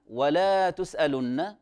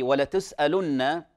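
First: Slow "ولا تسألن", long drawn laa; over-lengthened fatha. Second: "ولتسألن" with short la; correct emphatic lam. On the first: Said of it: "إذا أشبعت الفتحة". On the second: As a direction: clip only the la in "ولتسألن". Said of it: "لأن اللام في". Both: Shown as a demonstration.

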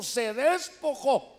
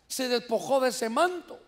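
First: "despojó" drawn out slowly, syllable by syllable; emphatic. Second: Said in the usual way. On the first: Real, not acted. Preacher showing how he threw off the cloak, "despojó" slow and emphatic. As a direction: stretch "despojó" out for weight. Preacher drives home the key word.

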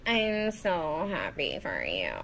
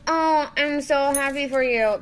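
First: Jennifer Coolidge impression. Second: High, loud breathy-free gush, lips barely moving; a lightly done Jennifer Coolidge after Botox; Jennifer Coolidge impression. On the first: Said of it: "Jennifer Coolidge in a Cinderella story, like, after she gets Botox". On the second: Vlogger imitating a Botoxed actress gushing at good news. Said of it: "I feel like Jennifer Coolidge in a Cinderella story, like, after she gets Botox".

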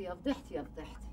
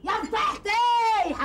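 First: Much softer, lower, trailing to a murmur "يا فضيحتي"; fading lament. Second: Much higher, louder and slow, "فضيحتي" wailed out; shouted lament. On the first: Woman moaning her shame under her breath. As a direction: let "يا فضيحتي" sink almost to nothing. Repeated lament dying away. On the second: Woman screaming at her disgrace. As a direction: burst out "يا فضيحتي" as a drawn-out scream. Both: Acted.

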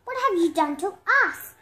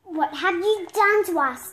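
First: Loud demand, stress on have. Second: Loud, pointed demand. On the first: Other animals to the culprit, loud demand. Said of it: "demanded the other animals". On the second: Water hogs to the culprit, loud demand. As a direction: demand an answer, stress on done. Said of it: "demanded the water hogs". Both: Acted.

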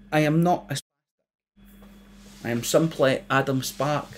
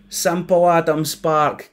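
First: Careful proper voice, a touch prim; a hint of a posh correct voice. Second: Slow, sneering mimicry of the name; bully mocking Sparky's name, slow and sneering; mocking repeat. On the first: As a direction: speak carefully and properly to the thickos. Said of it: "in the proper voice that Judy taught me". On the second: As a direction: drag out Simple like a taunt. Bully mocks his name.

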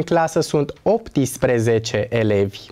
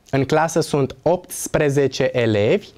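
First: Optsprezece with an extra I, op-ti-spre-ze-ce, lower; wrong optsprezece. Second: Optsprezece with all consonants, opt-spre-ze-ce; correct optsprezece. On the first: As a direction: slip an I into optsprezece. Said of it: "spun greșit optsprezece". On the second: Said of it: "trebuie pronunțat optsprezece". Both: Shown as a demonstration.

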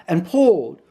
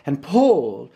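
No difference in how they are said.

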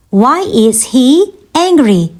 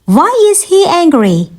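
First: Slower, pausing before "angry"; measured word-by-word question; slow teaching repeat. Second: Said in the usual way. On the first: Shown as a demonstration. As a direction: break it up for learners. Teacher repeats question slowly for learners.

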